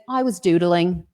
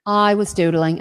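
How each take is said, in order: First: Light attempt at a Welsh accent. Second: Said in the usual way. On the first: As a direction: lilt it like a Welshman, half-joking. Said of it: "my best Welsh accent". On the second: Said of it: "and that's, yes, my best Welsh accent".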